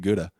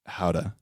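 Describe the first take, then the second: First: The word begins with a hard G sound. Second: The word begins with a breathy H sound. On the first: "this is really good Gouda" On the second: "he's like, howda"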